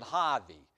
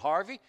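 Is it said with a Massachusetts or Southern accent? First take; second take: Massachusetts; Southern. First: It is said with a Massachusetts accent. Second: It is said with a Southern accent.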